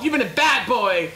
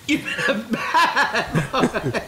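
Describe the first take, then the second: First: Said in the usual way. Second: Very slow, drawn-out teasing scold through laughter; laughing, slowly drawn-out tease; slow mock scolding. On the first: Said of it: "repeats line a second time". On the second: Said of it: "repeats it drawn out laughing".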